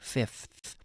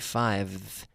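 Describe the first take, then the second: First: The word is said with an F before th. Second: The word is said with a V before th. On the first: The speaker calls it right. "We say fifth" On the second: The speaker calls it wrong. "we don't say five. It would be very difficult to make to even pronounce that word"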